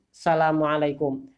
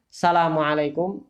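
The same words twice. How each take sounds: The two takes are said the same way.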